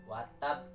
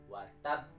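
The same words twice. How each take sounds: No difference in how they are said.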